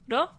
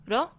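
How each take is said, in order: First: It starts with a tapped sound between r and l. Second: It starts with a tapped sound between r and l.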